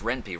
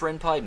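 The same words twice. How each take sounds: First: The second syllable sounds like 'pee'. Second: The second syllable sounds like 'pie'. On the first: The speaker calls it wrong. "the way it's spelled, it would have to be pronounced Ren'Py, right? Yeah, what an idiot I was" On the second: The speaker calls it right. "at first I thought, is this pronounced Ren'Py? Nah"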